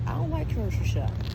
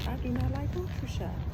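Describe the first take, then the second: First: Said in the usual way. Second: "do not" split apart and leaned on, "grocery" lifted high; stress on do not. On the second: Shown as a demonstration. Repeating to viewers for emphasis, stressing "do not". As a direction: spell out "do not like grocery shopping" with weight.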